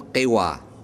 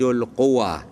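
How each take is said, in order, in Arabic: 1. الحركة الأولى ليست صوت 'u'. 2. الحركة الأولى صوت 'u'. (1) "مو قوة" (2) "الفصيح مالها قوة بضم القاف"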